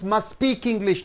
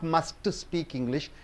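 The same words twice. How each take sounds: First: The t in must is dropped before speak. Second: The t in must is clearly pronounced. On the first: The speaker calls it right. "T is removed" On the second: The speaker calls it wrong. "not must speak English"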